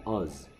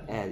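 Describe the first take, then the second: First: The vowel is a weak, reduced 'uh' sound. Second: The vowel is a full, clear 'e' sound. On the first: The word carries no stress. "또는 힘이 없으면 뭐래?" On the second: The word carries stress. "이게 에 소리에요"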